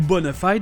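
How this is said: It is said with an American pronunciation. "Aux États-Unis, ils ont opté pour la simplicité"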